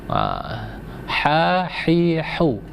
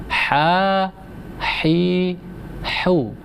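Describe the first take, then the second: Both takes have the same delivery.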